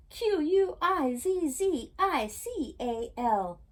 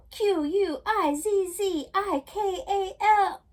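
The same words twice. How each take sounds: First: Slow, letter by letter, a bit louder; shouting corrected spelling. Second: Loud, slow, high spelled-out shout; shouting in sleep. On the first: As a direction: spell it out loud, slowly. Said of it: "Oops, I spelled that wrong. Let me read that again". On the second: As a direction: yell each letter as she wakes. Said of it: "She woke up shouting". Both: A narrator's reading.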